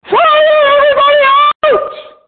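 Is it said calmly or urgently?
urgently. It is said urgently, with alarm.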